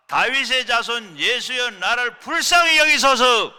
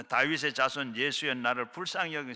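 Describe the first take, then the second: First: Higher, much louder, slow desperate cry; full shout. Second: Said in the usual way. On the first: Shown as a demonstration. Pastor leading the congregation in crying out to Jesus, all-out shout. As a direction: cry out with all your strength like the blind beggar. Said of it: "시작". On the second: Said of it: "한번 우리 소리 한번 질러 보겠습니다".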